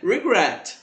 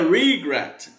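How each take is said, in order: First: The stress is on the second syllable. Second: The stress is on the first syllable. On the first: The speaker calls it right. "é regret" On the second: The speaker calls it wrong. "Não é regret"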